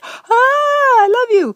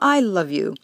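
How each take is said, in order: First: It sounds desperate and pleading. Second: It sounds calm and appreciative.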